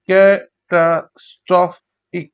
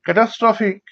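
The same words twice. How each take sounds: First: catastrophic slowly in four parts; syllable by syllable. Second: Said in the usual way. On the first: Shown as a demonstration. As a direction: pause after each beat of catastrophic. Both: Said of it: "চার ভাগে".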